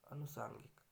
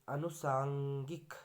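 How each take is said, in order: First: अनुसांगिक quicker, softer, falling; correct form. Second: अनुसांगिक drawn out slowly, rising; wrong form. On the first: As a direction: say अनुसांगिक softly in one falling sweep. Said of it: "ये सही है". (अनुसांगिक, धीमी आवाज़ में गिरते सुर से) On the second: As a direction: stretch अनुसांगिक syllable by syllable. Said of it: "ये गलत हो गया". (अनुसांगिक, धीरे खींचकर) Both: Shown as a demonstration.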